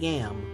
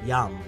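First: The vowel sounds like the a in cat. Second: The vowel sounds like the a in father. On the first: The speaker calls it wrong. "Not Yam" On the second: The speaker calls it right. "Heart is Yam"

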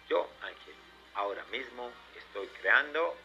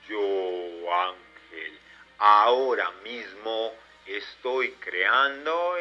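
First: It is said at normal speed. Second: It is said slowly.

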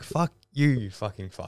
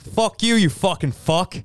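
First: It is said like a prim, conservative parent. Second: It is said in a New York accent.

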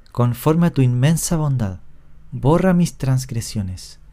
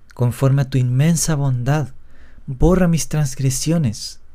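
No difference in how they are said.

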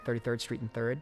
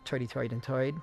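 First: It is said in a standard accent. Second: It is said in an old New York accent.

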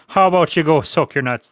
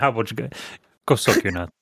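First: It is said in an Irish accent. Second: It is said in the speaker's normal accent.

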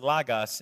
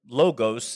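First: The word is said with a Greek pronunciation. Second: The word is said with an English pronunciation. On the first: "it's pronounced Logos in Greek" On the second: "that's how you pronounce that word, logos, in English"

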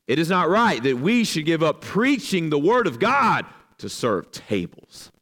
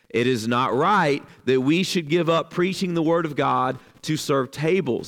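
First: It is read in a disparaging tone. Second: It is read in a neutral tone.

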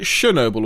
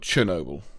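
First: The word begins with a soft 'sh' sound. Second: The word begins with a hard 'ch' sound. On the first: "sh with like an S sound" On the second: "and ch"

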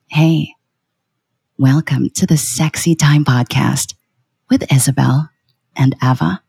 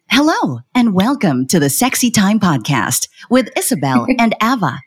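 First: It is lower, slower and intimate, sultry. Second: It sounds like an airplane cabin announcement.

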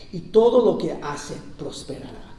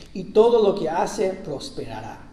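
Both takes have the same delivery.

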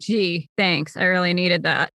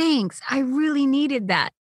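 First: It sounds sarcastic and ungrateful. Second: It sounds sincere and grateful.

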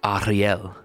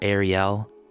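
First: The name is pronounced with French sounds. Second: The name is pronounced with English sounds. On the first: "how you would say it in French" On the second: "like as you would say it in English"

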